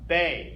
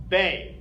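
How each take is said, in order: Both takes have the same delivery.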